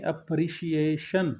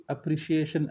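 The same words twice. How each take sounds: First: अप्रिशिएशन drawn out slowly, both sh sounds clear; slow careful sh pronunciation. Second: अप्रिशिएशन with sh in both places, apri-shi-eshun; sh pronunciation. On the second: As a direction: say अप्रिशिएशन with two sh sounds, not s. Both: Shown as a demonstration. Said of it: "दो दफ़ा शीन आएगी".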